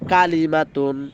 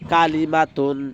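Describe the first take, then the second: No difference in how they are said.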